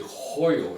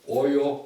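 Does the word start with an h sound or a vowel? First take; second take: h sound; vowel. First: The word begins with an h sound. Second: The word begins with a plain vowel. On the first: This is how New Mexicans said it then. "they say hoyo in New Mexico" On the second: This is the standard Spanish form. "Or hoyo"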